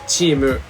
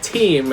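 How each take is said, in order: First: It starts with a ch sound, said as Japanese. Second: It starts with a t sound, said as English. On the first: "in Japanese is chimu" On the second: "like team"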